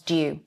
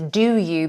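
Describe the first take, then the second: First: The two words are squeezed into one syllable. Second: Both words are pronounced fully and separately.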